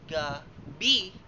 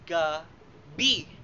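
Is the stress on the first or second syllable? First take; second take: second; second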